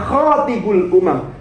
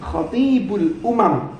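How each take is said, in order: First: The first vowel of the first word is short. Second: The first vowel of the first word is long. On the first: The one who proposes marriage to the nations. The speaker calls it wrong. "bukan khotibul umam" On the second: The one who preaches to the nations. The speaker calls it right. "yang panjang itu poknya khotib"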